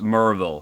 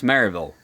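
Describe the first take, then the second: First: "Merville" squeezed short, the way the locals say it; local Tennessee pronunciation. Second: "Maryville" spelled out in full, Ma-ry-ville; outsider pronunciation. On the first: Retold or imitated. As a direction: say "Merville" in two syllables, "Mer" like "murr", "vəl" swallowed. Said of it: "you don't pronounce it Maryville, it's pronounced Merville". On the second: Shown as a demonstration. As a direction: say "Maryville" in three syllables, "Mary" like the name Mary. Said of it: "That's the way my voice says it".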